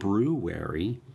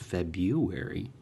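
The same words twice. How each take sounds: First: The word is said fully, as it is spelled. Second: The word is said differently from its spelling. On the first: "It's spelled" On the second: "but people pronounce it"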